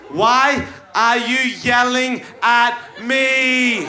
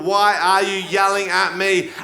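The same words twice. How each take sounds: First: Slow, higher accusing whine; whiny girlfriend question. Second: Said in the usual way. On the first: Acted. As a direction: drag it out like a hurt accusation. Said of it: "Question number four". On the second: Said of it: "four possible options".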